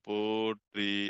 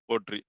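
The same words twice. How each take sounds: First: The word is somewhat drawn out. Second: The word is said short and clipped. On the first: "கொஞ்சம் நீட்டமா சொல்றது" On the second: "அது வந்து குறில்"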